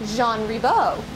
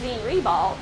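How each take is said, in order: First: The name is pronounced with a French sound. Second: The name is pronounced with an English sound. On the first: This is the person's actual name. "the actual French pronunciation is" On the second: This is the local form used on signs and the school name. "when we see it on signs and when we see it uh, the school listed"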